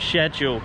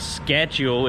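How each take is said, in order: First: It is said with a British pronunciation. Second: It is said with an American pronunciation. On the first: The speaker calls it right. "I should speak British English" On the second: The speaker calls it wrong. "It's not a schedule"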